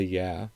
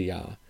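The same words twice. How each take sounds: First: Said in the usual way. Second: "yeah" with an open ah, as "yah"; "yeah" said softly as a rural "yah"; Upper Midwest "yah". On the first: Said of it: "I say". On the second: Shown as a demonstration. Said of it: "I don't say".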